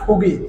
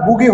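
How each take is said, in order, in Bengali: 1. শব্দটি শ্বাসযুক্ত প ধ্বনি দিয়ে শুরু হয়। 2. শব্দটি সুরযুক্ত ব ধ্বনি দিয়ে শুরু হয়। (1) "প এর মতো মুখ করে নেন" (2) "এটা বুগি হবে না"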